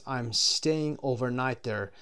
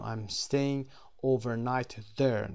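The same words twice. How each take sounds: First: Slow, careful example sentence; slow model reading. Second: Said in the usual way. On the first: Shown as a demonstration. Teacher reading the example to students, slow and careful. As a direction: read it out slowly for the class. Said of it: "teacher models example slowly". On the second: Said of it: "teacher repeats example".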